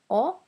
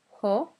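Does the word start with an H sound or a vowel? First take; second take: vowel; H sound. First: The word starts directly with a vowel. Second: The word starts with an H sound. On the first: The speaker calls it right. "don't pronounce the H" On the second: The speaker calls it wrong. "not ho"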